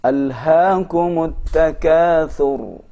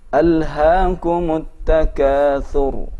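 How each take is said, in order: No difference in how they are said.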